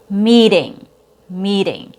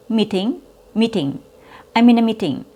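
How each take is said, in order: First: Meeting with long ee, t as quick d; meeting said like mee-ding; long E, fast D. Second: Meeting with clipped ee, true t; meeting, short vowel and hard t; shortened vowel. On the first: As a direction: stretch the ee in "meeting", flap the t. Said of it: "fast T sound". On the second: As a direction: chop the ee in "meeting", crisp t. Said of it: "When you shorten your vowel sound". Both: Shown as a demonstration.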